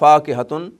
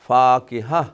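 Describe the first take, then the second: First: The word ends with a 'tun' sound. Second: The word ends with an 'ah' sound. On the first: The reader carries on without stopping. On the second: The reader stops on this word.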